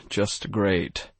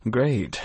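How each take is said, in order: First: Grumbled. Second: A higher sarcastic "Great", falling at the end; "Great" thrown out with mock cheer. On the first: Acted. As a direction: mutter "just great" under the breath. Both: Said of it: "I grumbled".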